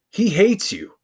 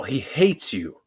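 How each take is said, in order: First: Pitched up high, leaning hard on hates; emphatic repeat. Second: Said in the usual way. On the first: Real, not acted. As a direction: hammer the warning home the second time. Repeats warning with contrast.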